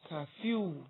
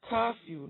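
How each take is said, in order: First: The stress is on the second syllable. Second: The stress is on the first syllable. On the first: The speaker calls it wrong. "not curfew" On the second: The speaker calls it right.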